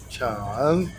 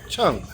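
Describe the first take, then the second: First: The pitch dips low and then rises. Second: The pitch falls sharply from high to low. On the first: "Those are the four tones" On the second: "Those are the four tones"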